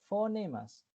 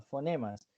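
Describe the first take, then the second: First: Fonemas said higher, with a long drawn-out final s; stressed term. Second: Said in the usual way. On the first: Shown as a demonstration. Teacher to students, drawing out fonemas for them to remember. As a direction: stretch the s at the end of fonemas.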